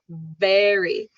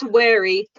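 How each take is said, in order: First: The word begins with a buzzing V sound. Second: The word begins with a rounded W sound. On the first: The speaker calls it right. "bite your lip" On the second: The speaker calls it wrong. "Not wary"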